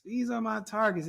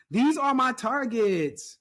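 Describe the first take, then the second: First: Said in the usual way. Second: "these" stressed, louder, slow and higher; slow emphasis. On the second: Shown as a demonstration. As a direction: land hard on "these are my targets", drawn out.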